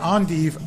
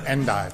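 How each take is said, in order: First: The word is given a French pronunciation. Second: The word is given an English pronunciation. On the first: "French or English" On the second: "French or English"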